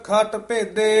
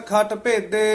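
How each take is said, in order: Both takes have the same delivery.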